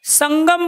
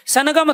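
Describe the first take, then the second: First: संगम with a nasal ङ gliding into ग; correct pronunciation demo. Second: सनगम with a full न before ग, as the wrong way; wrong pronunciation demo. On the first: (संगम, अनुस्वार को ङ की तरह सही बोलना) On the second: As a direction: say सनगम, splitting न and ग apart. (सनगम, पूरे न के साथ गलत उच्चारण) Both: Shown as a demonstration. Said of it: "संगम बोलते हो".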